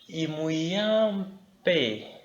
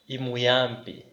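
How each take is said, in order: First: The word is said with strong emphasis. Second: The word is said flat, without strong emphasis. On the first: He is very good. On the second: He is good.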